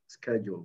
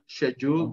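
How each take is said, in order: First: It is said with an American pronunciation. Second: It is said with a British pronunciation. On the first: "American is American English is" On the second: "British British is"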